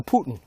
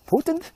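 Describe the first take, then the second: First: "Putin" falling, POO-tin; alternative pronunciation. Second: "Putin" high and rising, POO-tind; questioned pronunciation. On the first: Host offering the other option, "Putin" falling as POO-tin. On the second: Host comparing two ways to say it, "Putin" high as POO-tind. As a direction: lift "Putin" into a question, with a muddied ending. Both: Shown as a demonstration. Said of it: "but it's really Putin".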